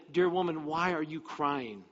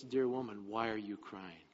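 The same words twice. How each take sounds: First: Lightly voiced angel, slowing at the end; angel's question. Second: Low, soft, tender question; another voice, gentle. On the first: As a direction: ask it openly in a slightly lifted voice. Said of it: "the one angel said". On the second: Acted. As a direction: ask it gently and low, consoling her. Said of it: "another voice said this".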